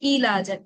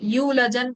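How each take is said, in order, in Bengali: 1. প্রথম সিলেবলে লম্বা i শব্দ আছে। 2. প্রথম সিলেবলে w শব্দ আছে। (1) "তারা বলবে হচ্ছে ইলাজান" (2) "ইউলাজান বলবে না তারা"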